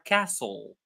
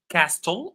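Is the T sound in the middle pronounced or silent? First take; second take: silent; pronounced. First: The T sound is silent. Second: The T sound is pronounced. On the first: The speaker calls it right. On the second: The speaker calls it wrong.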